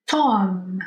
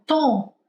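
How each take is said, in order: First: "Tom" ending with the lips pressed shut on a clear M; English Tom. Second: "tom" with a nasal vowel and no closed M; Portuguese tom. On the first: Teacher contrasting English "Tom" with Portuguese tom, lips closed. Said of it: "se eu pronunciar Tom, em inglês, os meus lábios encostam". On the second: Teacher showing the Portuguese "tom" with a nasal ending. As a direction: let "tom" fade through the nose, lips apart. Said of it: "se eu pronunciar tom em português". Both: Shown as a demonstration.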